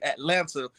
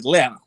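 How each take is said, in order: First: It is said the way out-of-towners say it. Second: It is said the way locals say it. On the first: The speaker is not from the area. "we know y'all gonna say Atlanta" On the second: The speaker is from the area. "down here we pronounce it as Atlanta"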